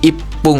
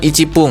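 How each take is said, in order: First: A doubled 'p' replaces the 'chi' syllable. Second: A full 'chi' syllable comes before the 'p'. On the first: The speaker calls it right. "tapi menjadi ipung" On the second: The speaker calls it wrong. "dia bukan ichipung ya, bukan"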